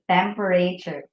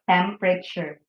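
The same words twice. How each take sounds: First: Every syllable is sounded out as it is spelled. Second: One middle syllable is reduced or dropped. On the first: The speaker calls it wrong. "that's why we hear people saying temperature" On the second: The speaker calls it right. "But the correct pronunciation is temperature"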